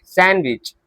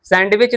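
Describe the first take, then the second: First: "सैंडविच" said as SAN-witch, no D; "सैंडविच" going straight from n to w; silent D. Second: "सैंडविच" with the D voiced, SAND-witch; "सैंडविच" said as spelt, sand-witch; D sounded. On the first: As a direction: drop the D in "सैंडविच" as the correction. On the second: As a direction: voice the D in "सैंडविच" as the wrong example. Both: Shown as a demonstration. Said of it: "सैंडविच नहीं होता है".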